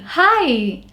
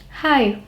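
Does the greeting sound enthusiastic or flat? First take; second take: enthusiastic; flat. First: The greeting is lively and full of energy. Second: The greeting is flat and low in energy. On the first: The speaker seems keen to talk. The speaker calls it right. "like this" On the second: The speaker does not seem keen to talk. The speaker calls it wrong. "That is not coming across as you being energetic or enthusiastic"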